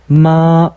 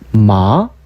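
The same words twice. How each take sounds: First: The pitch stays high and level throughout. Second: The pitch starts mid and rises slowly. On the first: It means mother. "마 하면 엄마란 뜻이 되고" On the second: It means hemp, a plant. "이성은 이제 아 이렇게 높아지고"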